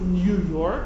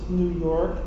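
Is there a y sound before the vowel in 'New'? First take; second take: yes; no. First: New is said with a y glide. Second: New is said without a y glide. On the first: This is the standard pronunciation. The speaker calls it right. "you pronounce it New York, and therefore you should be transliterating it Nun Yud Vav" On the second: This is the immigrant pronunciation. The speaker calls it wrong.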